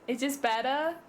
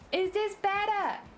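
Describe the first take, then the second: First: It is said in a normal voice. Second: It is said in a high-pitched voice.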